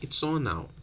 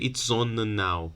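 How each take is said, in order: First: The two n sounds merge into one. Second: Both n sounds are pronounced separately. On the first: The speaker calls it right. "You delete one. You just say it's on now" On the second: The speaker calls it wrong. "You don't have to say it's on now. Sounds weird"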